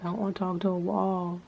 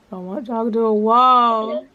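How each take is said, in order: First: Said in the usual way. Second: Higher, louder and slow, stretching out wall; exasperated louder repeat. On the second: Retold or imitated. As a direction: belt it out like you're fed up. Repeats complaint, second time louder.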